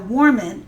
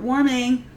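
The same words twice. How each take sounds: First: The final g sound is dropped. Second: The final g sound is pronounced. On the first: The speaker calls it right. "apostrophe, no G" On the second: The speaker calls it wrong. "not warming"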